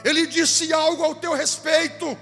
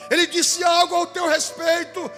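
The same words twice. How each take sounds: The two takes are said the same way.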